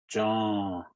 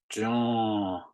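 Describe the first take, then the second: Both takes have the same delivery.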